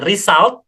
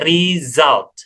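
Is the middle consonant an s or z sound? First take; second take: s; z. First: The middle consonant is a hissing s sound. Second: The middle consonant is a buzzing z sound. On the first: The speaker calls it wrong. "bukan result" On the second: The speaker calls it right. "pakai z sininya ya"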